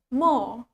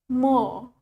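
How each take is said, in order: Both takes have the same delivery.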